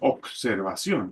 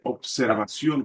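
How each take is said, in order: First: The consonant after obser is a c sound. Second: The consonant after obser is a b sound. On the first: The speaker calls it wrong. "con C" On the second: The speaker calls it right. "con B"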